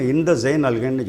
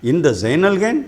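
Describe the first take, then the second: First: "இந்த Jain அல்ஹைன்னு" said as a statement, no questioning lift; statement tune. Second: "இந்த Jain அல்ஹைன்" rising at the end as a question; question tune. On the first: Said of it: "question ஸ்டைல்ல இல்லாம". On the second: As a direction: ask "இந்த Jain அல்ஹைன்" with a lifted ending. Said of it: "question mark வந்ததுனால". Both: Shown as a demonstration.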